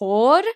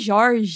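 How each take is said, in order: First: It is said with a Spanish pronunciation. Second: It is said with a Minas Gerais accent.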